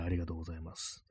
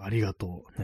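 First: Deep, soft thank-you; low voice. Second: Said in the usual way. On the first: Shown as a demonstration. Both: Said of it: "低い声で言うやつですね".

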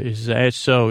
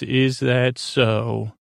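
First: Said in the usual way. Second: Slow menacing drawl; slow drawn-out question. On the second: Retold or imitated. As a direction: stretch it out slowly, each word weighed. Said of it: "He says".

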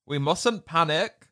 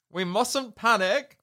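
First: Said in the usual way. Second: Much higher, shouted repeat of "We mustn't panic"; panicked shout. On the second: Retold or imitated. Bunty losing her head as the hens scream, panicked shout. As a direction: shout "panic" as the alarm rises.

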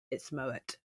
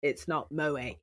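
First: "Moet" with the final T pronounced; sounded final T. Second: "Moet" as mo-AY, no T; silent final T. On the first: Woman in a clip teaching how to order wine, T sounded in "Moet". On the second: Woman in a clip showing the mistaken version, "Moet" without its T. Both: Retold or imitated. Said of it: "You pronounce it like this".

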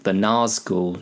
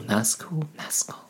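First: Said in the usual way. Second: Fading echo. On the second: Shown as a demonstration. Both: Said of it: "I was about to say the Razgul".

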